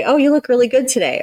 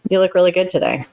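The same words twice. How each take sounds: First: High, mock-sweet sarcastic praise; sarcastic compliment. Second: Plain, honest praise; mean it simply; sincere compliment. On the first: A counselor shows her listener a snide tone, sarcastic. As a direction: say it so the compliment sounds fake. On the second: A counselor shows her listener a sincere tone, genuine. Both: Shown as a demonstration. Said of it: "That sounds totally different".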